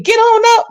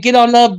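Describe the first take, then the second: First: "Get on up" answered high behind the lead; backing echo man. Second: Plain-pitched lead call "Get on up"; [name] line, lightly voiced. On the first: Retold or imitated. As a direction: squeak the echo back like the hype man. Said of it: "there was another man saying". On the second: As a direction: say it as the lead singer, near your own voice. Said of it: "every time [name] said".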